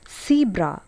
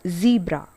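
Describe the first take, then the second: First: The word begins with an S sound. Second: The word begins with a Z sound. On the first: The speaker calls it wrong. "we tend to use the S sound. It's not zebra" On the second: The speaker calls it right. "Z is a sound which comes in the beginning"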